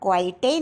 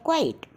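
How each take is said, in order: First: The word ends with an extra vowel sound. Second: The word ends without any extra vowel. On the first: The speaker calls it wrong. "हम क्वाइटे नहीं बोलते" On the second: The speaker calls it right. "हम बोलते हैं क्वाइट"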